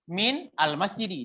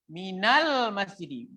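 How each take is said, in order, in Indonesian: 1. Min dan al diucapkan sebagai dua kata terpisah. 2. Min langsung menyambung ke al menjadi minal. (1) "Kalau kita wakaf, kita apa? Kita nggak sambung" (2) "Kalau kita wasal"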